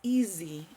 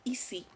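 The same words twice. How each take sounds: First: The middle consonant is a buzzing z sound. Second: The middle consonant is a hissing s sound. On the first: The speaker calls it right. "It's like with a little vibration" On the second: The speaker calls it wrong. "it's not easy. Like with the S"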